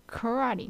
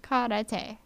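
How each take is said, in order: First: "Karate" said kuh-RAH-dee; mock wrong pronunciation. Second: "Karate" said kah-rah-teh with tapped r; Japanese pronunciation. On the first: Vlogger imitating mainland speakers, wrong pronunciation. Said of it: "Not karate". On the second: Vlogger correcting viewers, Japanese pronunciation. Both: Shown as a demonstration.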